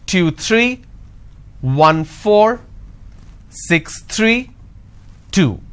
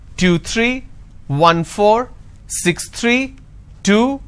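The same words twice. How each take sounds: First: The voice falls on the final number. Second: The voice rises on the final number. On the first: The series is finished. The speaker calls it right. "The moment I drop intonation" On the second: More numbers are coming. The speaker calls it wrong. "if I'm not dropping this tone, it will sound like as if it's going to continue"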